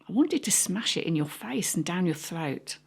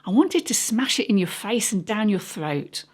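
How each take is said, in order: First: It is said at normal, quieter volume. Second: It is said at louder volume.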